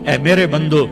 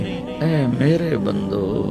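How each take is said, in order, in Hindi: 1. इसे सपाट, बेमन लहजे में कहा गया है। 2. इसे गर्म, कोमल लहजे में कहा गया है।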